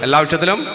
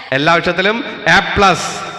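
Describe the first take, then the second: First: Said in the usual way. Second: Slow, louder reveal with "plus" stretched; excited reveal. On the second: Acted. Teacher picturing the result, slow excited reveal. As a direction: savour the big news. Imagined result day announcement.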